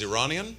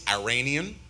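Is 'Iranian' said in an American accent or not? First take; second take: not American; American. First: It is said without an American accent. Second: It is said with an American accent.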